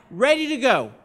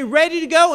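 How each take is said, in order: First: Raised answering chant, falling at the end; yelled reply. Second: Chanted, loud, high, rising at the end; chanted, call it out for them to echo. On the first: People answering the campaign staff, raised chant. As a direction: echo the call back firmly. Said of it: "people would yell back". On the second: Campaign staff leading the chant, loud high call. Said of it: "we would say". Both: Retold or imitated.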